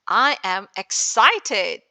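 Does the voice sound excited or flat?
excited. The voice is lively, showing real excitement. The speaker calls it right. "Like that"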